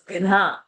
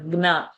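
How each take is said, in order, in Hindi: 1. "g" ध्वनि महाप्राण है, साँस के साथ। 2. "g" ध्वनि अल्पप्राण है। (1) "It's gna. Gha is a mahaprana over there" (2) "It is not gna"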